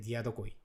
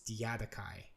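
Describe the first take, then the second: First: It is said with a Japanese pronunciation. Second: It is said with an English pronunciation. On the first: "in Japanese we say like a Diadokoi" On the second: "but in English it's Diadochi"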